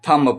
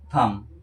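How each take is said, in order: First: The final b sound is pronounced. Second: The final b sound is silent. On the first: The speaker calls it wrong. "कुछ लोग थंब पढ़ते हैं, तो थंब गलत है" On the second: The speaker calls it right. "जब यम के बाद बी हो तब साइलेंट होता है"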